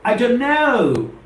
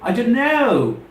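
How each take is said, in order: First: The three words run together in one smooth phrase. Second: The three words run together in one smooth phrase.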